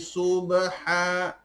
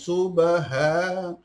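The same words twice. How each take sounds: First: The 'h' is a harsh sound from the throat. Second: The 'h' is a plain, light breath. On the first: The speaker calls it right. "huruf ha ... tapi subha" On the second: The speaker calls it wrong. "bukan subha"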